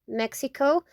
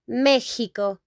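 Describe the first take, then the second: First: The x is not said like an h. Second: The x is said like an h. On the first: "Now let's go to Mexico in English" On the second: "We pronounce that in Spanish Mexico. Like H"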